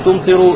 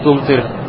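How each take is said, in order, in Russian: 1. Слово заканчивается на краткий гласный u. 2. Слово заканчивается на согласный, без гласного. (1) "Не тумтеру" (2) "будет с сукуном на конце"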